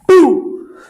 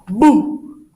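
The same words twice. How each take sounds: First: It is said loudly. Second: It is said at a normal, softer volume.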